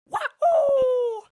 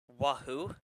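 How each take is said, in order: First: It is said loudly, with lots of energy. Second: It is said weakly, with little energy.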